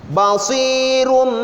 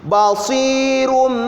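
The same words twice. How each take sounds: No difference in how they are said.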